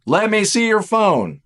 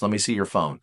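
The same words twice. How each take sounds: First: "Let me see your phone" louder, higher and slower, each word pressed; insistent demand. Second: Said in the usual way. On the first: Pretend. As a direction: repeat it as a stern, escalating demand. Suspicious partner demands phone.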